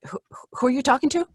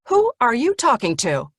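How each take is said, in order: First: It sounds confused and hesitant, with a stammered start. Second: It sounds stern and scolding, as to a child.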